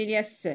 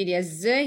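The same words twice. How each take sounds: First: "s" hissed as a bare consonant; voiceless s sound. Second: "z" buzzed as a bare consonant; voiced z sound. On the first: Teacher contrasts two sounds in the answers, voiceless "s". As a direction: make "s" an unvoiced hiss, not a letter name. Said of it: "S se prononce s". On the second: Teacher contrasts two sounds in the answers, voiced "z". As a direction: make "z" a voiced buzz, not a letter name. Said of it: "S se prononce z". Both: Shown as a demonstration.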